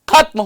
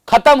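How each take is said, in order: First: The first syllable has extra stress. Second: The first syllable has no extra stress. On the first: The speaker calls it right. "इसका उच्चारण थोड़ा बलाघात से करना होता है" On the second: The speaker calls it wrong. "ऐसा नहीं करना चाहिए"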